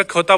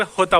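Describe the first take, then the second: First: खोता as "kho-taa". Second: होता as "ho-taa". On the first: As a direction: start खोता on a KH. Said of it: "कहीं कहीं पर खोता बोला जाता है". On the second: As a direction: begin होता on a breath H. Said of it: "कहीं पर होता बोला जाता है". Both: Shown as a demonstration.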